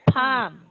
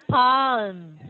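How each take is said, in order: First: The L sound is left silent in the word. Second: The L sound is pronounced in the word. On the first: The speaker calls it right. "it's silent L, so you're going to pronounce it as palm" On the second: The speaker calls it wrong. "Not palm"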